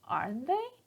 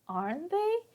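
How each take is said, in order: First: The pitch rises at the end. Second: The same.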